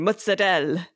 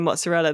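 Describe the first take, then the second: First: It is said Italian-American style, with a D sound. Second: It is said in a standard way.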